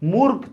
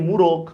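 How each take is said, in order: First: The middle consonants are said together without a vowel. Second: A vowel is inserted between the middle consonants.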